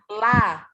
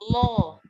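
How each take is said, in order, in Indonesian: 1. L-nya tipis dan ringan, vokalnya terbuka. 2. L-nya tebal dan berat, vokalnya membulat. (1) "ketika lamnya tipis adalah la" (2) "Kalau tebal lo"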